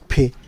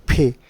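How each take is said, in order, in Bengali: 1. P-তে স্পষ্ট একটু বাতাস বের হয়। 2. P-তে স্পষ্ট একটু বাতাস বের হয়।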